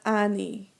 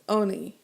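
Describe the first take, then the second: First: The first vowel sounds like 'ah'. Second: The first vowel sounds like 'oh'. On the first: The speaker calls it wrong. "not ani" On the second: The speaker calls it right. "it's pronounced oni"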